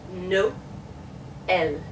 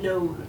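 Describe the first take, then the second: First: "no, el" split by a clear pause; stop and start. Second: "no" as a single held NOLE; one sound. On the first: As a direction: stop after NO, restart on EL. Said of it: "makes it stop and start". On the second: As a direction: blend Noel into one syllable, "no" plus L. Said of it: "that being one sound". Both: Shown as a demonstration.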